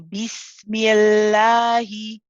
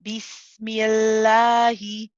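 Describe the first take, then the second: First: The l sound is light and thin. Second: The same.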